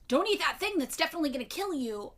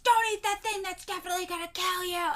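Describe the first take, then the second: First: It is said in a calm, ordinary voice. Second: It is said in a booming, angry voice.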